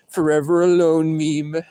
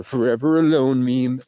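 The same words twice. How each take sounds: First: Higher, slower, drawn-out self-mocking catchphrase; mock proclamation. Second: Self-mocking catchphrase, slightly raised; mock announcement. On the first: Alone in the car, joking about himself, drawn-out mock proclamation. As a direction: proclaim it bigger, pitched up and stretched out. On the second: Alone in the car, joking about himself, mild mock announcement.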